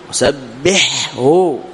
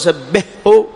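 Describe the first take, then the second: First: The ḥ sound is clearly pronounced before the h. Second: The ḥ sound is merged into the following h. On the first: The speaker calls it right. "وسبح هكذا تقول" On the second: The speaker calls it wrong. "هذا أضغمت، هذا خطأ"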